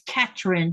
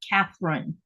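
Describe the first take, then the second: First: The middle consonant is a plain t sound. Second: The middle consonant is a th sound. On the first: This is how people locally say the name. "they don't have a T H in their articulation of words" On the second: This is the name's usual English form. "not Catherine"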